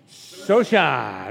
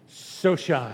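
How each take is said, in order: First: It is said with more feeling and energy. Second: It is said plainly, without much feeling.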